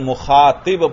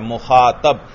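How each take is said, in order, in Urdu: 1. 't' آواز کے بعد کی حرکت 'i' ہے۔ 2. 't' آواز کے بعد کی حرکت 'a' ہے۔ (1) "طوا کے نیچے زیر پڑھتے ہیں" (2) "مخاطب کی طوا پر زبر پڑنا ہے"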